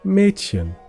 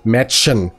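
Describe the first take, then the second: First: The ch sound is a soft breath. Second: The ch sound is harsh and scraping. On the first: The speaker calls it right. "We say" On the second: The speaker calls it wrong.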